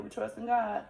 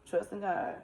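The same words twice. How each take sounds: First: Trust in God stated firmly and a bit raised; "We trust in God" said firmly, raised and insistent; firm declaration. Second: Said in the usual way. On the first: Retold or imitated. Firm faith declaration to friend.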